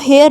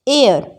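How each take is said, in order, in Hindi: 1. यह शब्द h ध्वनि से शुरू होता है। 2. यह शब्द स्वर ध्वनि से शुरू होता है। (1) "हेयर नहीं पढ़ेंगे" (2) "एयर पढ़ते हैं हम इसको"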